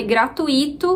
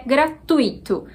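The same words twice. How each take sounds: First: "gratuito" in four syllables with stressed I, gra-tu-Í-to; common variant pronunciation. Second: "gratuito" with TUI as one stressed syllable; accepted pronunciation. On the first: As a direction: split "gratuito" so the I carries the stress. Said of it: "Embora muita gente fale gratuito". ("gratuito" com hiato, gra-tu-Í-to) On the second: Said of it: "Tui, sendo uma sílaba só". ("gratuito" com ditongo, gra-TUI-to) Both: Shown as a demonstration.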